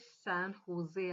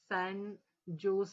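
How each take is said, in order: First: The second word begins with an H sound. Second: The second word begins with a J sound. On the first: The speaker calls it right. "पण ते San होजे आहे" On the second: The speaker calls it wrong. "San जोस असं म्हटलं जातं"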